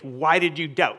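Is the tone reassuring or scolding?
scolding. It is said in a scolding, rebuking tone.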